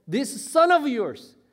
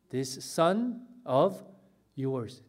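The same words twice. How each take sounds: First: Acted angry accusation, high and loud; furious. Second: Said in the usual way. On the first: Elder son disowns his brother to father, furious and loud. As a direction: spit out the phrase in raised-voice indignation. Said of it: "화가 머리끝까지 난 거예요". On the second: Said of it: "뭐라고 동생을 부르고 있어요?".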